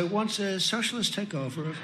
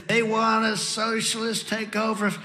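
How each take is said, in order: First: Exaggeratedly restrained, hushed politeness; nice, toned down. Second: Strained, higher mock shout held back in volume; mock scream. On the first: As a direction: say it very nicely, much softer. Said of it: "trying to say that very nicely". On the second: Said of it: "normally I'd scream". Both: Shown as a demonstration.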